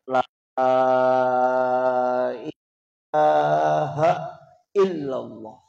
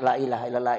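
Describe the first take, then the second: First: The vowels are drawn out long. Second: The vowels are said short and plain. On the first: The remembrance has a real effect. The speaker calls it right. "dia tarik" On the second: The remembrance has no effect. The speaker calls it wrong. "kalau dibaca saja"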